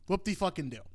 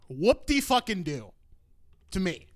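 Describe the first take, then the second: First: Softer, quicker sarcastic aside; dismissive. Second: Sarcastic. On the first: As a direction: toss it off quietly, unimpressed. Repeats sarcastic reaction, lower key. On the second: Sarcastic reaction to greatest movie claim. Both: Real, not acted.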